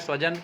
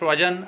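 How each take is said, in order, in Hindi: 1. शब्द सामान्य 's' ध्वनि से शुरू होता है। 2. शब्द 'sh' ध्वनि से शुरू होता है। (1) "हमको बोलना है स्वजन कि हमारे लोग आ रहे हैं" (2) "स तालव्य स का उच्चारण कर दिए तो कुत्ता लोग आ रहे हैं"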